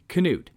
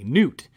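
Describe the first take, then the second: First: The word begins with a clear K sound. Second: The word begins with an N sound, no K. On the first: The speaker calls it right. "with a hard K" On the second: The speaker calls it wrong. "a silent K"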